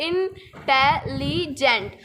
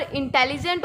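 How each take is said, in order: First: इंटेलिजेंट split as इन-टे-लि-जेंट; in four parts. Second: Said in the usual way. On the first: Shown as a demonstration. Teacher shows students four syllables, इंटेलिजेंट said इन-टे-लि-जेंट in pieces. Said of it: "इसको हमने चार parts में बोला". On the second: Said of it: "उसको हम कैसे बोल रहे हैं".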